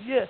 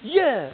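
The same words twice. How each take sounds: First: Short, flat and unimpressed; the thrill already gone; bored yeah. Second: High, loud and eager; a bright, thrilled yes on day one; excited yeah. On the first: Next-day listener, no longer excited. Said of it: "the next day you're like". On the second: First-day listener, full of excitement. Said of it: "And then the next day you're like". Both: Shown as a demonstration.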